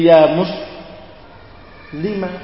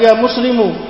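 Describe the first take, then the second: First: The last word ends with an a vowel. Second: The last word ends with a u vowel. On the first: A woman is being called. The speaker calls it right. "Mimnya di fathah" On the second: It sounds like a man is being called. The speaker calls it wrong. "Tidak boleh kamu mengatakan ya muslimu"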